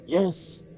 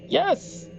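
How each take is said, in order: First: It is said plainly without emphasis. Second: It is said with excited emphasis.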